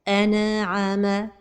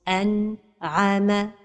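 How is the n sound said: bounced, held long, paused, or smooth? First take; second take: bounced; paused. First: The n sound is bounced with an echo. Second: There is a pause after the n. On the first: "La première erreur, c'est القلقلة de النون الساكنة" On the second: "La troisième erreur, c'est de faire une pause"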